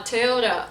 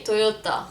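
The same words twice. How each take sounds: First: Slow American-style Toyota; attempted English accent. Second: Toyota with round Os and crisp T; Lebanese pronunciation. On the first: Retrying it for viewers, slow American accent. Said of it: "can't even say it in English". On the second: Showing viewers the Lebanese way, crisp T in Toyota. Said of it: "We say Toyota". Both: Shown as a demonstration.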